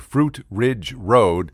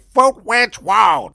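First: The R sounds are said normally. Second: Every R sound is said like W.

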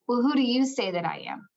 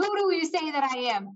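First: It is said in a gentle, compassionate tone. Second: It is said in an angry, exasperated tone.

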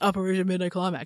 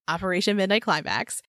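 First: It is said casually, without intensity. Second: It is said coolly, with dramatic intensity.

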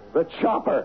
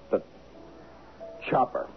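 First: It is said loudly. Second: It is said quietly.

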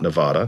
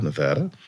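First: The middle vowel sounds like the a in 'father'. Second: The middle vowel sounds like the a in 'bad'. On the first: The speaker calls it wrong. "Not Nevada" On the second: The speaker calls it right. "It's the first time I've ever said it right"

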